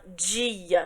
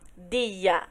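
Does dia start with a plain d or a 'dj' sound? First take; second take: dj sound; plain d. First: It starts with a soft dj sound. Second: It starts with a plain hard d. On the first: "a gente fala dia. Tem esse d" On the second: "a gente não fala dia"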